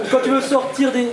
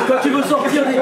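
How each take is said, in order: Both takes have the same delivery.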